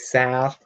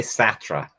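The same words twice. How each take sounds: First: "Sartre" as one syllable, ending unsounded; "Sartre" with a long vowel and no "ruh"; own pronunciation of Sartre. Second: "Sartre" as two syllables, "SAT-ruh"; "Sartre" with short a and voiced ending; others' pronunciation of Sartre. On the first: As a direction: say "Sartre" like "Sart", without the final r. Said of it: "I've heard people say Sartre". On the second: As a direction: sound the final "ruh" in "Sartre". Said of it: "that just doesn't sound right". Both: Shown as a demonstration.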